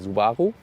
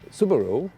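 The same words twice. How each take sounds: First: It is said the way Germans say it. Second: It is said the way Americans say it. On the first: "in Germany we say Subaru" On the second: "in America you tend to say Sub Subaru"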